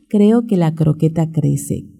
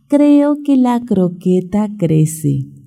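First: The phrase is said at a fast pace. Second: The phrase is said at a slow pace.

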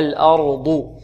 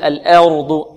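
First: The opening vowel is full, with heavy r. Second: The opening vowel is weakened and thin. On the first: The speaker calls it right. "نحافظ على الفتحة ثم نفخم الراء" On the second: The speaker calls it wrong. "لا نقول الأرض نقلل الهمزة"

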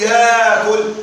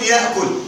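First: A long 'aa' vowel replaces the glottal stop. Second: A glottal stop follows the first vowel. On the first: "أن تقلب الهمزة مدا من جنس الحركة" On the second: "الوجه الأول أن تبقى الهمزة"

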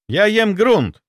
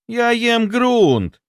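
First: It sounds like a plain statement. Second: It sounds like a complaint. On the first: A fact is being stated. "Это утверждение" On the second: Something is being complained about. "Это жалоба"

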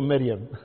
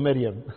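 First: The name is said in a Kuwaiti dialect style. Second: The name is said in a Kuwaiti dialect style.

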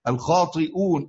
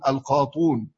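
First: A glottal stop is heard before the final syllable. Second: No glottal stop; the vowel before is rounded.

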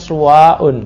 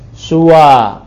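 First: The word ends with a hamza and -un. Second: The word ends on a short plain vowel. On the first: The speaker calls it wrong. "Enggak ada yang suwa'un" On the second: The speaker calls it right. "kalau kasar dengan dom. Suwa"

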